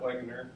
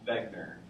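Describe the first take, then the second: First: The name begins with a W sound. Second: The name begins with a V sound. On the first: The speaker calls it wrong. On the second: The speaker calls it right.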